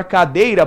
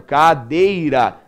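First: Said in the usual way. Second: "cadeira" drawn out slowly in three beats, ca-dei-ra; syllable by syllable. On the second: Shown as a demonstration. ("cadeira" bem devagar, separando ca-dei-ra) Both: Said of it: "emitir a voz três vezes".

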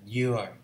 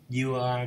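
First: "you are" run together as you're; contracted pronunciation. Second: Said in the usual way. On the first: Shown as a demonstration. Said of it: "You are đọc là you are". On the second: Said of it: "đọc là".

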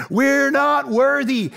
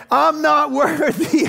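First: Chanted, slow, drawn-out mock worship; chanted, bow down, Wayne's World style; slow mock groveling chant. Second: Hammed-up, drawn out, laughing through it; mock worshipful Wayne's World chant, slow; Wayne's World bow. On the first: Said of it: "shoot to the nineties". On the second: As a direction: grovel like Wayne and Garth. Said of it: "We need a little Wayne's World".

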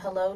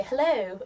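First: Said in the usual way. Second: "hello" in an imitated English accent, pitched up. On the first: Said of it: "how I usually say it". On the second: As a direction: copy the English way of saying "hello". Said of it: "everybody's saying that to me like that".

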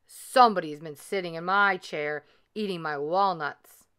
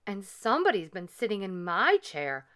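First: Lightly voiced papa bear growl; a hint of big bear growl; great big bear voice. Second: Lightly voiced mama bear; a mild mama bear cry; middle-sized voice. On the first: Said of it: "growled in his great big bear voice". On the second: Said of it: "cried Mama Honey Bear in her middle-sized voice". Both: A narrator's reading.

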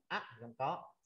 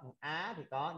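First: "á" cut short by a stop in the throat; cut-off á sound. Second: "á" as an open, unstopped vowel; open á sound. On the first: Teacher showing a sound Vietnamese lacks, stopped "á". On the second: Teacher showing a Vietnamese rime, open "á". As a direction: let the "á" ring open. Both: Shown as a demonstration. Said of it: "không có cái vần mà á".

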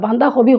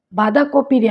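First: বাঁধাকপি like banda-khobi; Sylheti pronunciation. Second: Said in the usual way. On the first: Shown as a demonstration. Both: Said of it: "আমরা বাঁধাকপি কই".

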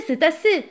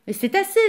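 First: Loud, falling insistent shout. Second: High, loud pleading cry; shouting. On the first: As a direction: repeat it louder, insisting. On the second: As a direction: cry it out, rising in alarm. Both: Acted. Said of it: "Yvon criait".

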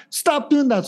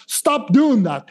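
First: "Stop doing that" pitched much higher, more urgent; a nervous owner scolding harder, voice jumping up; rising mock scold. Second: Said in the usual way. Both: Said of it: "human is like".

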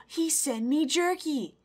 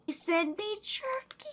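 First: Slow, higher, falling at the end; emphatic amazement. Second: High, slow, incredulous lilt; astonished delight. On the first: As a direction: draw out each word in awe. Repeats it after a gasp. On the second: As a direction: stretch it upward in amazement. Astonished by gift of jerky. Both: Real, not acted.

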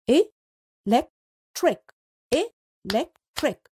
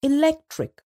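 First: Electric stretched slowly into e-lec-tric; slow syllables. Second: Said in the usual way. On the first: Shown as a demonstration. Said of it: "can be split into three parts". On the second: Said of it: "Split up the given words into syllables".

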